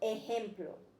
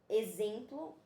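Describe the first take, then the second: First: The word has a Spanish-style pronunciation. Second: The word has a Portuguese-style pronunciation. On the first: The speaker calls it right. "eles falam ejemplo" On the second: The speaker calls it wrong. "eles não falam exemplo"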